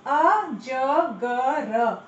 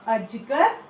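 First: अजगर drawn out as a-ja-ga-raa; syllable by syllable. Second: Said in the usual way. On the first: Shown as a demonstration. Teacher sounding out अजगर while quizzing children. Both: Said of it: "हमने पढ़ा था ना".

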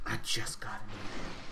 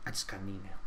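First: Hushed secretive whisper. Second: Said in the usual way. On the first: Pretend. Gamer whispers to viewers as if sharing a secret. Teasing an announcement, whispered repeat.

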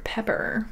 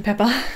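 First: "Pepper" with a sounded final r; second R pronounced. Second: "Peppa" ending in "ah", no r; non-rhotic accent. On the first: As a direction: finish "Pepper" on a clear r. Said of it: "you pronounce the second R". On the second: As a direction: say "Peppa" with the final r dropped. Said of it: "Because of my accent". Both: Shown as a demonstration.

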